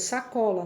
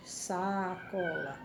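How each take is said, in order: First: Said in the usual way. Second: Sacola drawn out slowly, quiet and unhurried. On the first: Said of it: "ela sai de uma só vez". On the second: Shown as a demonstration. Teacher showing the class sacola said slowly. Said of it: "falar ela pausadamente".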